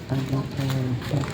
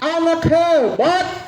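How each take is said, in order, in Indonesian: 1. Dipanggil dengan suara sangat pelan. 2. Dipanggil dengan suara keras dan semangat. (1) "Lebih pelan lagi. Kecil lagi suaranya" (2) "lebih semangat lagi"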